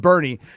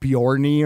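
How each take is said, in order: First: The name begins with a 'ber' sound. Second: The name begins with a 'byor' sound. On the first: The speaker calls it right. "It's Bernie" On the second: The speaker calls it wrong. "I called it Bjorny or something like that"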